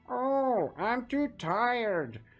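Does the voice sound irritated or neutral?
irritated. It is said in an irritated voice.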